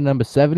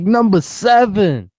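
First: Said in the usual way. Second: High, slow hype-man holler; Funk. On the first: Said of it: "You'd be like". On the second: Retold or imitated. Co-host imagines the radio host working a drive-thru, mock hype holler. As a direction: draw it out as an over-hyped announcement. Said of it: "He's like".

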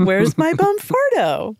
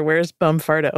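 First: High, drawn-out comic wail of a question; mock plaintive searcher. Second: Said in the usual way. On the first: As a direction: ham it up, slow and high-pitched. Hammed-up repeat of the question.

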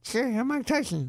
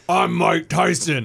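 First: Higher and softer, Tyson's light voice; Tyson's high, soft actual voice; real Tyson voice. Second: Slow, loud, tough-guy Tyson growl; what you'd expect Tyson to sound like. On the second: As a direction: announce yourself slowly like a tough heavyweight. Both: Retold or imitated. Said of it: "you expect him to be like".

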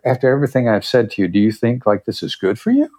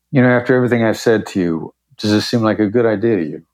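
First: Quick question lifting at the very end on "good for you"; upward inflection. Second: Quick, assured question that lands downward on "to you"; downward inflection. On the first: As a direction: let "is good for you" turn upward, genuinely asking. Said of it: "with my upward inflection at the very end". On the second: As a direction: question said as a statement, falling on "to you". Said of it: "the downward inflection was a statement". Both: Shown as a demonstration.

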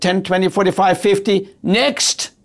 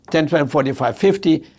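First: Curt teller. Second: Friendly counting. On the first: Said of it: "as if she was angry that I was there". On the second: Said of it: "She could have said". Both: Retold or imitated.

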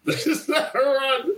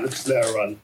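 First: High, drawn-out repeat through laughter; much higher and slower, laughing; laughing incredulity. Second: Said in the usual way. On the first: Retold or imitated. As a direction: crack up while stretching out the line. Laughing repeat of same line.

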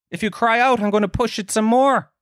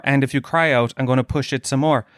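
First: Lyric repeated much higher in a mocking lilt; mock high singsong. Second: Said in the usual way. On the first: Shown as a demonstration. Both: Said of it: "repeated higher in mockery".

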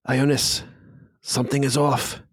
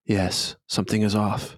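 First: Slightly higher, lightly voiced figure; lightly acted higher-pitched warning; uneasy character. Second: Understated, lightly voiced reply; restrained in-character agreement; agreeing character. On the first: First of two figures speaking. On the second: Second figure agrees.

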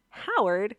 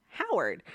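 First: "Howard" higher, rising like a puzzled question; mom repeating in disbelief. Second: "Howard" plain, with a falling tune, like a simple fact; toddler stating Howard. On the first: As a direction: echo "Howard" back as an amused question. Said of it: "the mom repeats it". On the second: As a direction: sag "Howard" ganz nüchtern wie ein kleines Kind. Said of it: "She says". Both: Retold or imitated.

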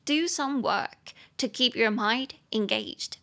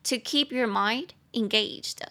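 First: Slow model sentence. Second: Slow model phrase. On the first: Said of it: "model sentence". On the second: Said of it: "repeat of model". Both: Shown as a demonstration.

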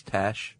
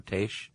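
First: "tache" said like "tash"; short-a pronunciation. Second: "tache" said like "taysh"; long-a pronunciation. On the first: Host guessing at a French term, "tache" as "tash". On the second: Host guessing at a French term, "tache" as "taysh". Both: Shown as a demonstration. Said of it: "I don't know if it's tache or tache".

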